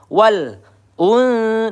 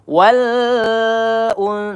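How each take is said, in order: First: The l sound is held back and stopped. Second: The l sound is allowed to flow on. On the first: "Ada yang membaca tertahan wal un, nah itu keliru" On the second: "dialirkan lamnya juga keliru"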